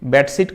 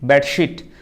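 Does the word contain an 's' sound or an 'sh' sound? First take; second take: s; sh. First: The word is said with a plain s sound. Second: The word is said with an sh sound. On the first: The speaker calls it wrong. "बेडशीट कहली नहीं" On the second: The speaker calls it right. "एसएच sound रे तालव्य स शीट"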